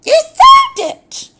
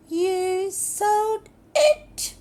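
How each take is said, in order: First: Very high, very loud shriek, falling on "sold". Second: Slow, high, loud, with "it" rising at the end; rising question. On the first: Demo of a line read as a shriek. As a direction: screech "You sold it!" with a fall. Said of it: "And it's a shriek". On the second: Demo of a line read as a question, rising. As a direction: lift the end of "You sold it!" into a question. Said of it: "'Cause it's a question". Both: Shown as a demonstration.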